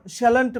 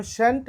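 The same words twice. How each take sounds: First: শ্যালেন্ট spelled out in full as shall-ent, the form not used; teacher sets শ্যালেন্ট aside as the wrong form; uncommon form. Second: শ্যান্ট said short as one syllable, shan't; common contraction. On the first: Teacher showing the form students should avoid, full spelling. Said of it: "যেমন শ্যালেন্ট বলি না". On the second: Teacher giving students the common form, short contraction. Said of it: "এটাকে বলা হয় শ্যান্ট". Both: Shown as a demonstration.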